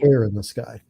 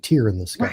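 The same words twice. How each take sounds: First: The word 'tear' rhymes with 'air'. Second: The word 'tear' rhymes with 'ear'. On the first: The speaker calls it right. "but it's it's tear" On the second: The speaker calls it wrong. "I still refer to it as a tear in the sky"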